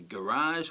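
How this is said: It has the American stress placement. "In America they tend to say"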